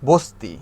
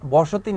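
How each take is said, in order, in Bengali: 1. মাঝের স্বরটি বাদ পড়ে, তাই দুটি দল হয়। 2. মাঝের স্বরটি থাকে, তাই তিনটি দল হয়। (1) "যখন আমরা দ্রুত উচ্চারণ করতে যাই ... স্বরটাকে স্কিপ করে চলে যাই" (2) "বসতি না বলে"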